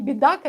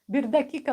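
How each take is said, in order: First: The phrase is shortened, with sounds dropped out. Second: Every syllable of the phrase is pronounced fully. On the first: The speaker calls it wrong. "А не бедака" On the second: The speaker calls it right. "нужно говорить"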